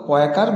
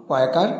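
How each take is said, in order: The two takes are said the same way.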